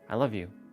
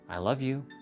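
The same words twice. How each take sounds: First: It is said flatly, with no energy. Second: It is said with energy and livelier tone. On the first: The words are empty. The speaker calls it wrong. "There was no energy to that" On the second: The words carry real feeling. The speaker calls it right. "I just changed the tonality because I added some energy to that word"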